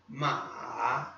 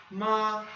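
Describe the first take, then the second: First: "Ma" low, falling then rising with a little wobble; third tone. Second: "Ma" on a high, continuous tone; first tone. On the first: Teacher demonstrating the third tone, "Ma" dipping and rising. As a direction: let "Ma" sink and climb back up. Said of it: "Desce e sobe, aquela tremidinha na sílaba". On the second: Teacher demonstrating the first tone, "Ma" sustained without any dip. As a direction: hold "Ma" high and level. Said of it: "com um tom contínuo". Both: Shown as a demonstration.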